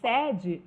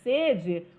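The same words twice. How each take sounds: First: The stressed vowel is an open e. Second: The stressed vowel is a closed e. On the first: A company's main office. "o E é aberto" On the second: The desire to drink water. "o E é fechado"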